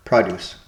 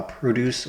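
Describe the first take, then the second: First: Produce said as PRO-duce; stress on first syllable. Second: Produce said as pro-DUCE; stress on second syllable. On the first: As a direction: produce with the weight on pro-, the noun. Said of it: "Emphasis on first syllable". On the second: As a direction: produce with the weight on -duce, the verb. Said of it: "Emphasis on second syllable". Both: Shown as a demonstration.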